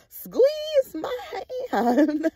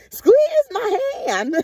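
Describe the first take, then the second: First: Very slow, high, crying, hammed-up; slow wailing mock plea. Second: High, crying voice, hammed-up as mom; mock crying plea. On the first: Retelling mom at the stepdad's bedside, slow, high, mock crying. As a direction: drag it out like a mock sob. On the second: Mocking mom pleading by the bed, high, crying. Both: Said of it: "She like".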